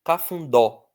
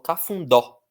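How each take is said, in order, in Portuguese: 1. A força está na última sílaba. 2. A força está na última sílaba.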